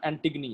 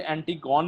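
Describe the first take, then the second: First: एंटिगनी said with the ending -gani; correct pronunciation. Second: एंटिगोन said the wrong way, ending in -gone; teacher demonstrates the mistaken reading एंटिगोन; wrong pronunciation. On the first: Teacher corrects students to the reading एंटिगनी. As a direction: give the right form एंटिगनी. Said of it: "इसे एंटिगोन नहीं पढ़ना, एंटिगनी है ये". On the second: Teacher warns students off the wrong reading एंटिगोन. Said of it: "इसे एंटिगोन नहीं पढ़ना". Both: Shown as a demonstration.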